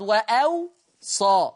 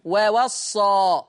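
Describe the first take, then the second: First: "وأوصى" as wa-awsa, slow, single sad; hamza between waws. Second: "ووصى" as wawassa, very drawn out; two open wa syllables in "ووصى", then a held double s; doubled sad. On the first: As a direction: glottal stop then aw in "وأوصى", light s. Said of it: "يضع همزة بين الواوين". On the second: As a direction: Hafs reading, "ووصى" said slowly wa-wassa. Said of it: "بيشدد الصاد وبواوين مفتوحتين". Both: Shown as a demonstration.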